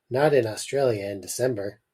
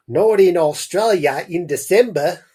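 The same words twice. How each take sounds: First: Said in the usual way. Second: Higher, louder, badly faked Australian accent; hammed-up attempt at an Australian mum. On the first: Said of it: "I forgot I was doing a voice for the mum". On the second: Reader tries Mum's line after realising it's Australia, bad Australian accent. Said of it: "I don't know if I could pull off an Australian accent".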